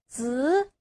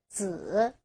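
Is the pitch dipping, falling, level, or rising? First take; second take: rising; dipping. First: The pitch rises from mid to high. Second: The pitch dips low, then rises.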